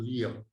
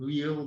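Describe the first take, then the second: First: The name begins with a V sound. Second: The name begins with a W sound. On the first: "it probably was a V to pronounce it" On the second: "a W to spell"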